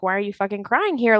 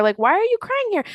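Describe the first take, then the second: First: Said in the usual way. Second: Much higher, disbelieving repeat; incredulous mock yell. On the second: Mocking Canadian protesters, high incredulous yell. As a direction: pitch it up in mock outrage. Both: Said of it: "And so I'm like".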